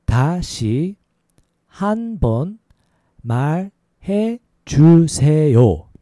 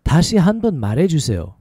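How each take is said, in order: First: Syllable by syllable, with gaps; slow demonstration. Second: Syllables joined into one flowing phrase; a little faster. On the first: Teacher showing learners how to ask for a repeat, slow. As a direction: draw out each syllable for learners. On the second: Teacher modelling a repeat request for learners, a little faster. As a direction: run it together at conversational speed. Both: Shown as a demonstration. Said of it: "A little faster".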